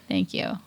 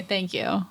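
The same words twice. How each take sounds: First: Deep thank you. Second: Said in the usual way. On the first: Shown as a demonstration. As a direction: Thank you dropped to a very low rumble.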